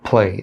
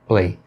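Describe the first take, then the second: First: The p is released with a puff of air. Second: The p is released without a puff of air. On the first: The speaker calls it right. "O correto é play" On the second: The speaker calls it wrong. "E não simplesmente play"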